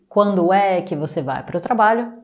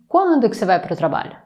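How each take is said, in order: First: The word 'é' is pronounced after 'quando'. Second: The word 'é' is left out after 'quando'. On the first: This is the full written form. "je vais lire les deux" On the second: This is the everyday spoken form. "on va couper é"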